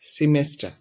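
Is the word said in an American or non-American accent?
non-American. It is said in a non-American accent.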